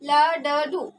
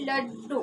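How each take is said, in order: First: The two d sounds are split by a vowel. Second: The two d sounds join into one double consonant. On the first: The speaker calls it wrong. "क्या हो जाएगा इसका उच्चारण लडडू" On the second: The speaker calls it right. "आधा डा इस डा के साथ में जुड़ जाएगा"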